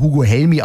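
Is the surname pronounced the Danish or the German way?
Danish. The surname ends softly, the Danish way. "Hugo Helmy ausgesprochen auf Dänisch"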